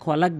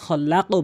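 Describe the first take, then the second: First: The final consonant stops abruptly without a bounce. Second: The final consonant ends with a bouncing echo. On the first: The speaker calls it wrong. "কিন্তু এটা কখনোই খলাক বলবেন না" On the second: The speaker calls it right. "খল্লাকও বলতে হবে"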